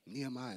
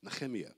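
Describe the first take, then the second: First: The name is said with an English pronunciation. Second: The name is said with a Hebrew-style guttural sound. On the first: The speaker calls it wrong. "I've been saying it wrong the whole time" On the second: The speaker calls it right. "I don't have the guttural sound right just yet"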